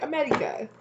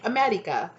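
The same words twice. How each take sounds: First: America in a mock thick foreign accent, pitched much higher; hammed-up foreign accent, "Amedica" squeaked up high; exaggerated replay of the heard accent. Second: Imitating a thick foreign accent on America; mock thick accent, America said as "Amedica"; a heard foreign accent parroted back. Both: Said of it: "in a really thick accent".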